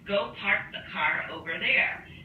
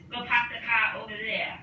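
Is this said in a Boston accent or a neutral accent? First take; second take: neutral; Boston. First: It is said with no regional accent. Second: It is said in a thick Boston accent. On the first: "in a non-accent" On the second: "the Boston accent is"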